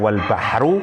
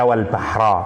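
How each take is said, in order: First: The word ends with an 'u' vowel. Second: The word ends with an 'a' vowel. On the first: "bisa dibaca wal bahru" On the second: "bisa dibaca wal bahra"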